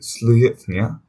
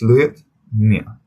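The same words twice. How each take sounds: First: Only one syllable is stressed, run together. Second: Both words carry their own stress, said separately. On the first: The speaker calls it wrong. "it's wrong because ... Would be um one long word" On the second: The speaker calls it right. "this syllable is going to be stressed, and this syllable is going to be stressed"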